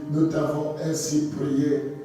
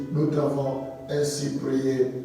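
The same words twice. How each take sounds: No difference in how they are said.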